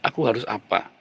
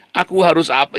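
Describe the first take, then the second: First: Soft, level, considered asking; calm realistic self-question. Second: Confused self-question. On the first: Preacher voicing a realistic person, calm and quiet. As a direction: ask yourself quietly, like a sensible person. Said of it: "ketika orang realistik". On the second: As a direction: ask it like someone lost in illusion. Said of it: "kalau kamu berhalusinasi dan berilusi". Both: Shown as a demonstration.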